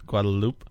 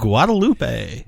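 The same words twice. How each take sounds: First: Guadalupe ending flat on loop, no final ay sound; dropped final E. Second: Guadalupe said slowly, kwah-tah-LOO-pay with a final ay; careful Spanish-style place name. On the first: Cohost correcting himself on the pronunciation, dropping the final E. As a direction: clip Guadalupe short as gwah-duh-LOOP. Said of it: "the E sound on the end of that". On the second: Cohost teaching the host how to say the island's name, said slowly and carefully. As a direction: sound out Guadalupe syllable by syllable, ending on pay. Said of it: "I don't know how to pronounce it".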